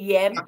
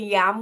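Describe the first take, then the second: First: The vowel sounds like the 'e' in bed. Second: The vowel sounds like the 'a' in cat. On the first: The speaker calls it right. "We say yem" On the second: The speaker calls it wrong. "We don't say yam"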